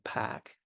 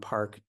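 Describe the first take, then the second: First: The R is dropped with a fronted vowel. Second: The R is pronounced after the vowel. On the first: "the classic New England pronunciation is more like pack, because the vowel actually shifted" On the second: "if I just drop my R"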